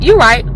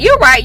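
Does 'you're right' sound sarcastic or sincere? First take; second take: sarcastic; sincere. First: It is said in a condescending, sarcastic tone. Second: It is said in a sincere, agreeing tone. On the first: The speaker does not really agree. "they know you're being condescending and sarcastic" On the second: The speaker really agrees. "they want to hear that"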